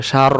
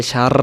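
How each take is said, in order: First: সার with rounded mouth and a shorter final r; rounded, controlled r. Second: সার with a long rolled r at the end; mistaken over-rolled r. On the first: Teacher correcting a mistake, সার rounded with a controlled r. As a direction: round সার without dragging out the trill. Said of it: "মনটা গোল হবে". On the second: Teacher showing learners a mistake, সার with the r over-rolled. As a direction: overdo the trill closing সার. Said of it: "ভুল হয়ে যাবে". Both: Shown as a demonstration.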